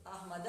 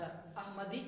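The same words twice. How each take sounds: First: अहमद said slowly with no ending vowel; right form. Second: अहमदी said with a long final ee as the wrong reading; wrong form. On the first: Teacher gives the correct reading अहमद to students. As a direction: say अहमद cleanly, stopping on the d. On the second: Teacher names the wrong reading अहमदी to students. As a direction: say the mistaken अहमदी with its ending ee. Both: Shown as a demonstration. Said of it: "अहमद ये पढ़ेंगे".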